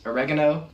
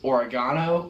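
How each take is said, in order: First: It is said with an American pronunciation. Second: It is said with an Australian pronunciation.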